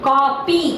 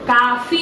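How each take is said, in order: First: The middle consonant is a p sound. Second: The middle consonant is an f sound. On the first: The speaker calls it right. "ಕಾಪಿ ಕಾಪಿ ಕಾಫಿ ಅಲ್ಲ" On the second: The speaker calls it wrong. "ಕಾಫಿ ಅಲ್ಲ"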